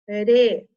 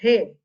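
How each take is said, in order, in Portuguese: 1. O R é um tepe leve e simples. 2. O R é um som forte e gutural. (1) "Olha o fraco" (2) "olha o forte"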